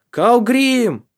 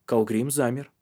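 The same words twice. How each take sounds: First: A high, loud shout from a distance; ringing yell of a name; calling out. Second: Said in the usual way. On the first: Acted. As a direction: call his name down the slope. Tari calls out from above.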